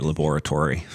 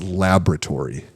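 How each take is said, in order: First: Laboratory said la-BOR-a-tory, stress on BOR; laboratory with the British-style BOR stress; pronunciation of laboratory. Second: Laboratory said LAB-ra-tory, stress on LAB, slowly; slow laboratory stressed on the first syllable LAB; pronunciation of laboratory. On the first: Real, not acted. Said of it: "I don't like the way you say labo". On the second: Shown as a demonstration. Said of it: "It's laboratory".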